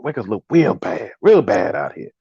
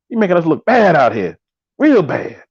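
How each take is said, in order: First: Low, slow, softened comedian impression; John Witherspoon. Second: Said in the usual way. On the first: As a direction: drop the voice and drag it out like the comedian. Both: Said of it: "in my John Witherspoon voice".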